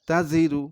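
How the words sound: The syllables are read together as one word. "এবারে একসাথে পড়তে হবে।"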